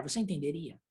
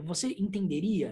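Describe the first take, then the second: First: Said in the usual way. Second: Mildly measured, syllable-by-syllable "entenderia". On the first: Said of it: "se eu falasse a frase mais devagar". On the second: Retold or imitated. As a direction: lightly space out the syllables of "entenderia". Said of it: "se eu pronunciar sílaba a sílaba".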